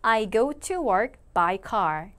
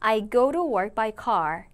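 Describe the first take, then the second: First: The sentence is said at a slower pace. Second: The sentence is said at a faster pace.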